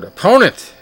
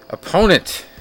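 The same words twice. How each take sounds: First: Said in the usual way. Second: Opponent said higher and louder, leaned on hard; stress on opponent. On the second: Real, not acted. Host mocking a boxer's weak foe, stressing opponent. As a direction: punch the word opponent with a wry edge. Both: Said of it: "emphasis on the word opponent".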